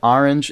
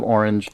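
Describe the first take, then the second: First: It is said with a New York pronunciation. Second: It is said with a Californian pronunciation. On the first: This is how the speaker said it as a child from New York. "I said orange" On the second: This is how people in California say it. "instead of orange"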